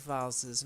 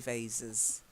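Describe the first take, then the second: First: The word is said with a British vowel. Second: The word is said with an American vowel. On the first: "I always say vases" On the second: "Americans might say vases"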